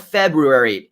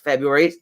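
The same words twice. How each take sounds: First: The second R sound is pronounced. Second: The second R sound is dropped. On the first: The speaker calls it wrong. "no more February" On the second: The speaker calls it right. "it's just February"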